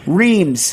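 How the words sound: The name is said with an English pronunciation. "As we would say"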